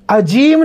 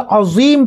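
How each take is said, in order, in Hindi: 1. बीच का व्यंजन 'j' की आवाज़ है। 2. बीच का व्यंजन 'z' की आवाज़ है। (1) "अजीम नहीं पढ़ना" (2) "देखो मैं क्या कह रहा हूँ, सुबहान रब्बी यल अज़ीम पढ़ना है"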